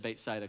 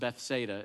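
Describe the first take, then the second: First: The name is said with a Hebrew pronunciation. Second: The name is said with a Southern English pronunciation.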